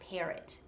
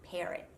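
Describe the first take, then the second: First: It is said in an American accent. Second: The same.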